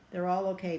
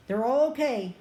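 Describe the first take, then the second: First: Said in the usual way. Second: Higher and louder, stress on "all"; relieved, "They're all okay" with "all" lifted high; emphatic relief. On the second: Real, not acted.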